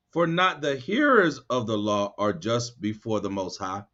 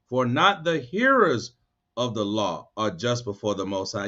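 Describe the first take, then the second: First: Said in the usual way. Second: Slow on For not the hearers, then dropping low; slower emphatic reread. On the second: Shown as a demonstration. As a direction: reread it slowly so they listen. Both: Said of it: "I'm gonna read it again".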